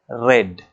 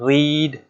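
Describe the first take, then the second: First: The vowel is short, as in red. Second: The vowel is long, as in reed. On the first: It is the past form of the verb. "the spelling is same but the pronunciation is differ" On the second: It is the present form of the verb. "the spelling is same but the pronunciation is differ"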